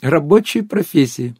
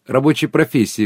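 First: Higher, slow, drawn-out echo; squealed disbelief. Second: Understated squeal of disbelief; mild squeal. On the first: Guest repeats the absurd phrase, slow squealed disbelief. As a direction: savour each word in mock amazement. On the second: Guest echoes her friend's words, mildly squealing. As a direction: react with a touch of amused shock. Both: A narrator's reading. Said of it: "взвизгнула Анюта".

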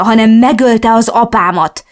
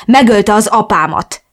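First: Louder, higher hysterical shout; hisztérikus üvöltés; hysterical yelling. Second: Blunt, louder retort. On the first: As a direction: scream it out, beside herself. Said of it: "üvöltöttem hisztérikusan". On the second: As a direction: spit it bluntly in her face. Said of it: "vágtam nyersen az arcába". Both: Acted.

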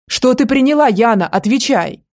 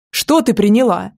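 First: Higher, louder demand, rising on приняла; demanding shout. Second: Mildly raised demanding question. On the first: Man shaking the girl again for the answer, loud demanding shout. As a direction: bark the question at her. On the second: Man shaking the girl for an answer, mildly raised voice. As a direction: press her for an answer, a bit louder. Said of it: "повысил голос". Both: Acted.

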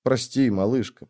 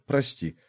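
First: Softly, gently comforting; calm the crying sister; a soft, tender sorry; soothing whisper. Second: Much softer, almost breathed; the softest sorry to the sister; fading whisper. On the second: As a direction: let it die away to nothing. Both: Acted. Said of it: "зашептал успокаивающе".

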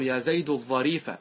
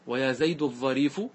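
First: يا زيد الظريف with final damma, al-ẓarīfu; يا زيد الظريف, end الظريف on u; nominative ending on the adjective. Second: ويا زيد الظريف with final fatha, al-ẓarīfa; ويا زيد الظريف, end الظريف on a; accusative ending on the adjective. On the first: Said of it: "إذا قلت الظريف راعيت اللفظ". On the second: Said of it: "وإذا قلت يا زيد الظريفة راعيت المحل". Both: Shown as a demonstration.

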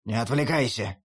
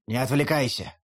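First: Put-on lower, gruff old wolf grumble; grumbling wolf. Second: Put-on lower, gruff grumble from the old wolf. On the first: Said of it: "ворчит волк". (ворчливо, низким голосом волка) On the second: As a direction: mutter it like an impatient wolf. Wolf voice repeated. (ворчливо, чуть ниже обычного)

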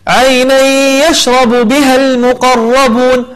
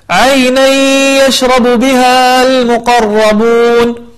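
First: عينا يشرب with the n merged into the ي and a held nasal ghunna; correct recitation. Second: عينا يشرب said without the nasal merging, a plain n before يشرب; wrong recitation. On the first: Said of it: "فنقول". (إدغام بغنة في عينا يشرب) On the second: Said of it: "وهذا خطأ". (قراءة خاطئة بلا غنة في عينا يشرب) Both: Shown as a demonstration.

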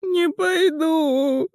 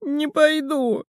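First: High, slow panicked shout of Не пойду!; high shout, stress on НЕ; shrieked refusal. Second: High, slow squeaky refusal; a frightened little squeak; squeaky high Не пойду!. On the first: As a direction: scream it, clinging on. Пискнул Мел. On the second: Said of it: "пискнул Мел". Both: A narrator's reading.

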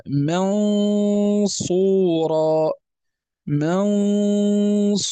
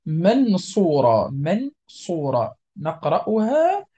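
First: منصورا with a long nasal ghunna on ن, mouth set for ص; nasal hold on the n. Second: منصورة with the ن said clearly, no ghunna; wrong: ن in منصورة fully pronounced; clear n, no nasal hold. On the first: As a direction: draw out the ن of منصورا through the nose. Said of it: "هنا غنة". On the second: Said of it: "لا، لن نقول منصورة، يعني كأنه إظهار". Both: Shown as a demonstration.

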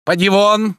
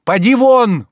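First: Loud, high "Поди вон!" hurled at the servant; menacing order. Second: A higher, louder "Поди вон!" than the first, near a yell; furious shout. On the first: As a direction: throw him out with a threat. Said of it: "прибавил он грозно". (грозно: поди вон) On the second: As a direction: order him out in full fury. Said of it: "повторил Илья Ильич". (яростный крик: поди вон) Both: A narrator's reading.

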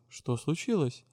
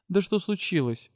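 First: A softer, puzzled "Что случилось?"; surprised question. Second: Exclaimed question. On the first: A friend asks the heroine what happened, quietly surprised. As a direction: ask "Что случилось?" quietly, taken aback. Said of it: "Янка удивлённо спросила". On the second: Captain demands to know what happened, exclaimed. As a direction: burst out with "Да что случилось?". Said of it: "воскликнула Верис". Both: Acted.

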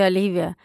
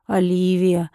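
First: Said in the usual way. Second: Lightly lower, dreamlike stranger's voice. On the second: A narrator's reading. Sleepwalking lord calls Olivia in a mildly strange voice. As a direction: say her name as if someone else speaks through him. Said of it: "произнёс он чужим голосом".

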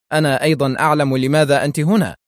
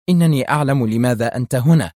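First: Quick, higher, breezily cool reply. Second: Understated tense retort. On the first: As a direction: answer briskly with smiling nonchalance. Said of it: "ابتسم قائلًا في برود". (برود مبتسم وسريع) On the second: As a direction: say it with a touch of tension. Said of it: "وهي تقول في توتر". (توتر خفيف) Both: A narrator's reading.

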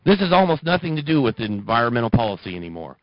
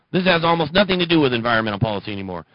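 First: Said in the usual way. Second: Rattled off quickly; fast read of This has almost nothing to do; fast retake. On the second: Real, not acted. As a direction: rush through the line again.

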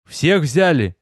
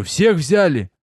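First: Rough, hoarse battle-weary ask; hoarse voice checking on his men; hoarse question. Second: Pressing the question again, a bit higher; impatient repeated question; insistent repeat. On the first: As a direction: rasp it out after the fight. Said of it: "хрипло спросил я". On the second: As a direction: demand an answer this time. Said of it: "Я спрашиваю". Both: A narrator's reading.

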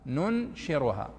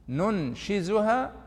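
First: "ننشرها" said slowly with a rolled r: "nunshiruha"; reading with ra. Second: "ننشزها" said very slowly with a clear z: "nunshizuha"; "ننشزها" drawn out, rising at the end; reading with zay. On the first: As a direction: draw out "ننشرها", falling at the end, with a clear r. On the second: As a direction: stretch out "ننشزها", leaning on the z. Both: Shown as a demonstration. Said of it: "وش الفرق بينها".

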